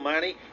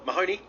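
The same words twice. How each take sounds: First: The surname is said with a New Zealand pronunciation. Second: The surname is said with an American pronunciation. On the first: The speaker calls it wrong. "I gave you a New Zealand pronunciation of your surname" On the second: The speaker calls it right.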